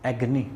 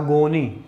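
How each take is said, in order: First: The middle vowel is short and reduced. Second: The middle vowel is a full 'o' sound. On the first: The speaker calls it right. "ये एगनी होता है" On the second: The speaker calls it wrong. "Mother tongue Haryanvi होता है, उसको पढ़ते हैं एगोनी"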